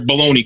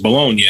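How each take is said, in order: First: It is said as baloney, ending in an ee sound. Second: It is said as Bologna, ending in a nya sound. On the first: "in America, they call it baloney" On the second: "That's where baloney came from, was Bologna"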